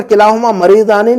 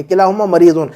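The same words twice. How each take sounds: First: "मरीदाने" with the dual "-आने" ending; wrong ending demo. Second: "मरीदुन" with the singular "-उन" ending; correct ending demo. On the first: (गलत रूप: "मरीदाने" के अंत में "आने") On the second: (सही रूप: "मरीदुन" के अंत में छोटा "उन") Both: Shown as a demonstration. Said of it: "नहीं कहेंगे".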